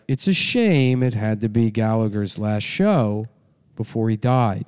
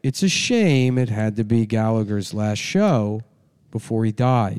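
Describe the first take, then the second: First: It is read flatly with weird pauses. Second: The same.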